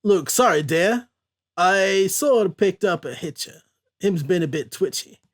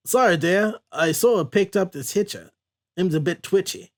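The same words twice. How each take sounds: First: Put-on terrible Cajun accent. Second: Put-on hammy, unconvincing Cajun accent; terrible Cajun accent. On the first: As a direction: apologize in careful, clumsy fake Cajun. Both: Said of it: "that was a terrible Cajun accent".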